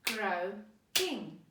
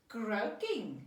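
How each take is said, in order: First: CROAKING in two loud separate beats, CROA - KING; clapped syllables. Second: Said in the usual way. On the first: Shown as a demonstration. Teacher clapping a word with children, CROAKING syllable by syllable. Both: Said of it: "Let's clap it".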